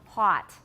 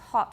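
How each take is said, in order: First: It is said with an American vowel. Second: It is said with a British vowel. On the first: "hot in America" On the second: "it's hot in British, a totally different vowel"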